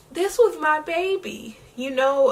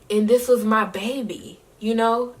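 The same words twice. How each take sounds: First: The same words, now breaking into tears; real crying. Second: Said in the usual way. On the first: Real, not acted. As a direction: voice breaking, pitched much higher with tears. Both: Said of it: "Y'all got me crying".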